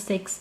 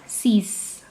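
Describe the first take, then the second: First: It is said with an English pronunciation. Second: It is said with a French pronunciation. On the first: "as simple as a six in English" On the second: "but you pronounce it as six"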